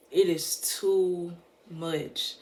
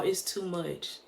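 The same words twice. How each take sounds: First: "It is too much" drawn out slowly, leaning on "is"; slow emphasis. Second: Said in the usual way. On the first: Real, not acted.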